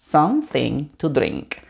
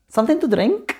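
First: "Something to drink" slow and low, falling on "drink"; measured take, lower, ending down; falling tune. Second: "Something to drink" higher, rising on "drink"; questioning tune climbing to "drink". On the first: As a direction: say "Something to drink" slowly, dropping at the end. Slow falling take after rising ones. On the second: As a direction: ask "Something to drink" with a lifted ending. Question take against falling take. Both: Shown as a demonstration.

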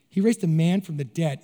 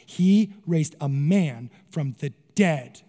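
First: Said in the usual way. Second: "He raised a man from the dead" slow, stressing He; "He" पर ज़ोर देकर धीरे बोलें. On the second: Retold or imitated. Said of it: "No, no, no".

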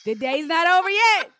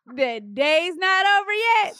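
First: Higher-pitched, rising mock protest; mocking husband's excuse. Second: High, stretched, climbing mock protest. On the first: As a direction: mimic a defensive husband, pitched up. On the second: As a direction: mimic the husband's excuse, dragging it out. Repeats husband's excuse, drawn out.

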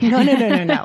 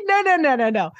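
First: A firm no no no; mock scolding. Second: Much higher, insistent string of no; high, firm no no no; emphatic mock scolding. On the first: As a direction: shut the idea down. First take of the scolding. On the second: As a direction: wave the idea away hard. Scolding the doctor again.

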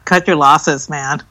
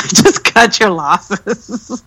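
First: Said in the usual way. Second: Drawn out through laughter; slow laughing repeat. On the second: Real, not acted. Laughing again at Netflix, slow and amused. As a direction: laugh it out slowly.

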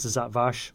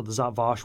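First: "Vash" with the short A of "cat"; short flat-A vowel in "Vash". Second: "Vash" with the broad A of "father"; long open AH vowel in "Vash". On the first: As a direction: say "Vash" to rhyme with "cash". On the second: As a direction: say "Vash" as "vahsh". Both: Shown as a demonstration. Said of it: "the Zat Vash, whatever".

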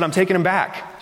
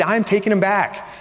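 First: Said in the usual way. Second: Firm stress on "I'm", higher and insistent; insistent repeat. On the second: Retold or imitated. Husband overruling his wife's doubt about returning pillows, "I'm" stressed insistently. Insists after being contradicted.

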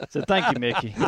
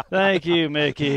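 First: Said in the usual way. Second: Mock thanks through a laugh. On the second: Real, not acted. Golfer thanking the man who eagled on him, laughing. Rueful thanks after losing hole.

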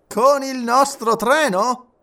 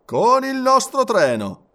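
First: CON IL NOSTRO TRENO asked high and slow, rising at the end; colonel's question. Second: CON IL NOSTRO TRENO affirmed high and slow, falling; firm confirmation. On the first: Colonel querying the plan, slow high rising question. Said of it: "domandò il colonnello". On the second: Engineer answering the colonel, high firm falling statement. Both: A narrator's reading.

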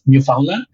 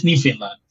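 First: "Newfoundland" said as "new-FOUND-land", every syllable clear; rest of Canada pronunciation. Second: "Newfoundland" run together as "NIF-in-lan", swallowing the middle; local pronunciation. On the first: Explaining how other Canadians pronounce the name, standard "new-found-land". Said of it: "cualquier otro lado de Canadá diría". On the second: Telling a friend how locals say their province, clipped "nif-in-lan". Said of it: "pero aquí es". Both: Shown as a demonstration.

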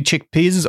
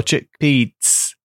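First: First "chickpeas" said as chick-peezes; slow "chickpeas" with a zz ending; pronunciation query. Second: Second "chickpeas" said slowly as chick-peets; slow "chickpeas" with a ts ending; alternative pronunciation. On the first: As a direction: end "chickpeas" in a buzzing z sound. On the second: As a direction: end "chickpeas" in a sharp ts, as in pizza. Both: Shown as a demonstration. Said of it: "how do you pronounce the abbreviation".

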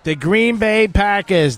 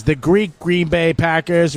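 First: Said in the usual way. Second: Slow, leaning on "Greek" as a joke; stress on Greek. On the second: Shown as a demonstration. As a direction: hit "Greek" slowly to make the pun.

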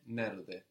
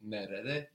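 First: "nerede" shortened to two syllables, ner-de; contracted form. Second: "Nerede" with all three syllables; full form. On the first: Teacher showing a contraction, "nerede" shortened to ner-de. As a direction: drop the middle e in "nerede". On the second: Teacher showing a contraction, "Nerede" first in full. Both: Shown as a demonstration. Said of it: "the same contraction".

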